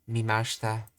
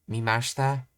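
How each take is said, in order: Both takes have the same delivery.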